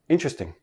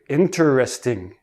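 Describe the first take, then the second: First: The syllables run together into three. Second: Each of four syllables is said separately. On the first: This is ordinary everyday speech. "But in everyday speech" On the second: The speaker wants to emphasize the word. "they enunciate each syllable"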